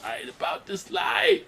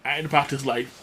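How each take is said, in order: First: High, stretched-out cartoon yell; hammed-up high wail, dragged out; mock panicked cry. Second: Said in the usual way. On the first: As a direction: cry it out in exaggerated falsetto despair. Same quote repeated as cartoon panic. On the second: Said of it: "Cuphead's like".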